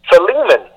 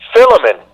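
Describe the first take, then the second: First: The stress is on the second syllable. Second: The stress is on the first syllable. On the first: The speaker calls it right. "with the emphasis on the L-E" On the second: The speaker calls it wrong. "with the emphasis at the beginning with the P-H-I"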